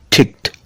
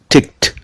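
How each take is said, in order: First: The ending is a t sound. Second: The ending is a t sound.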